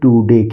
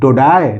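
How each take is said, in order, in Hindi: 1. यह too-day जैसा सुनाई देता है। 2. यह toe-dye जैसा सुनाई देता है। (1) "ये पढ़ेंगे टूडे" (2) "टोडाय नहीं"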